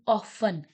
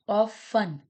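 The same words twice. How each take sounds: No difference in how they are said.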